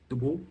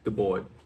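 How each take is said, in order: First: The name is said with a French accent. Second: The name is said with an American accent. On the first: "the best French, the faux French way I can" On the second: "as an American, you probably would say"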